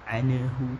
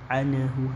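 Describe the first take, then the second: Both takes have the same delivery.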